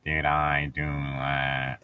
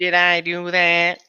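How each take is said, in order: First: A quiet, much lower deadpan echo; lower, slow mock echo. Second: Slow, louder nasal-free mock whine; Squidward impression. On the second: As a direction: do a Squidward line.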